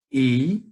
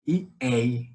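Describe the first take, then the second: First: "Ei" said with a closed e, like the sei of preconceito; closed "Ei", lightly louder. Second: "ei" said with an open e, like the dei of ideia. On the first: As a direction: give "Ei" a tight, closed vowel. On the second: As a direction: open the vowel of "ei" wide. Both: Shown as a demonstration. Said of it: "Ei de preconceito e ei de ideia".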